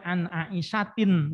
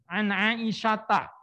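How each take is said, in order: First: The name ends with an 'in' sound. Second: The name ends with a short 'a' vowel. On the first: The speaker calls it wrong. "jangan dibaca" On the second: The speaker calls it right. "tetap dengan fathah"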